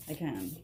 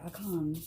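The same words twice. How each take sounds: First: Said in the usual way. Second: A hint of Jackson's borrowed British accent; Jackson's British-sounding accent. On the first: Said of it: "Or as Jackson would say". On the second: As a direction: lightly imitate Jackson's shifting British accent. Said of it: "I don't know where he gets his accent from".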